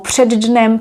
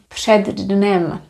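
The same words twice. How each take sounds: First: The words are said fast and run together. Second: The words are said slowly and kept apart. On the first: "When we speak fast, we link these words together" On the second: "I was saying these expressions a little bit slower"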